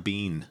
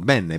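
First: The name is said like Bean. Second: The name is said like Beh-neh. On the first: This is a common mistaken form. "As long as you don't say Al Del Bean" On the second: This is the original Italian word for good. "it's Italian for good"

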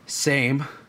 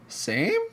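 First: It sounds disappointed. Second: It sounds perplexed.

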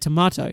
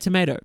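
First: Tomato is said the non-American way. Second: Tomato is said the American way.

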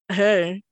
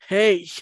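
First: It is said casually, without strong feeling. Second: It is said with intense, charged feeling.

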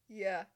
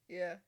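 Both takes have the same delivery.

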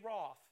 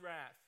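First: Wrath is said with a British vowel. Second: Wrath is said with an American vowel.

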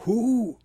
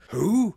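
First: It is hooted like an owl. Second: It is said in a put-on actor's voice. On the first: It imitates an animal call. "Or an owl with a sore throat" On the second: It quotes a line from a film. "I think it was a pretty reasonable impression of him"

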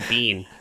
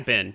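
First: The vowel is long, like in 'bean'. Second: The vowel is short, like in 'bin'. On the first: "You say bean" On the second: "But you don't say bin"

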